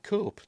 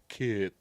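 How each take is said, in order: First: The vowel is a long 'oh' sound. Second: The vowel is a short 'eh' sound. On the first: "it looks like Cope to me" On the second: "I've heard people pronounce it Kep"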